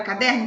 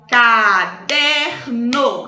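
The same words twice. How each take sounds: First: Said in the usual way. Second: Caderno split into ca-der-no, each syllable slow and drawn out. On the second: Shown as a demonstration. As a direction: open the mouth once per syllable of Caderno, slowly. (Caderno dito sílaba por sílaba, bem devagar) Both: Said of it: "Abri a boquinha três vezes".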